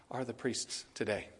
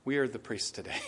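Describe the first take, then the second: First: Said softly, almost to himself; a hushed, convicted admission; quiet. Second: Soft, subdued repeat; quiet. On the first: Preacher hushing before the congregation, quiet and convicted. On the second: Preacher repeating his point to the congregation, softly. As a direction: say it low, as if convicted. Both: Real, not acted. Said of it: "I even say it quiet".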